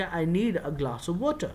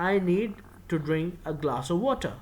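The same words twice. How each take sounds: First: Short form, slow. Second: Said in the usual way. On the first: Shown as a demonstration. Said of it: "اس کو short form کر کے". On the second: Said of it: "تو میں کہوں گا".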